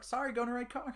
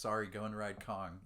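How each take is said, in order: First: It is said fast. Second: It is said slowly.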